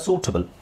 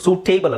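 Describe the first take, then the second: First: The middle syllable has a short reduced vowel. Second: The middle syllable has a long 'tay' vowel. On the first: The speaker calls it right. "ಸಣ್ಣ ಟ ಹೇಳಬೇಕು" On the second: The speaker calls it wrong. "ಸೂಟೇಬಲ್ ಅಲ್ಲ"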